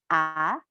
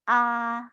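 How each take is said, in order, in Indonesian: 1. Nadanya naik sedikit lalu berhenti. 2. Nadanya tetap datar sepanjang waktu. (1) "Nada kedua itu naik sedikit" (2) "seperti kita bicara seperti biasanya"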